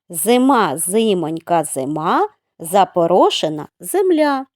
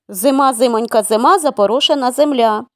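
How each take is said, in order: First: The phrase is spoken at a slower pace. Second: The phrase is spoken at a faster pace.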